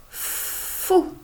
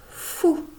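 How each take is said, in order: First: FOU with a long hissed f, then higher ou; sounding out. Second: Said in the usual way. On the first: Shown as a demonstration. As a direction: stretch the f of "fou" before the vowel. (« fou » déchiffré, f longuement tenu) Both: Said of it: "on commence par la première lettre".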